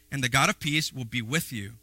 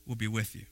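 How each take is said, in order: First: Said in the usual way. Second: Will be with you, dropped soft and low; softer echo. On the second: Shown as a demonstration. Preacher echoing a blessing, gentle and soft. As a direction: echo the promise quietly.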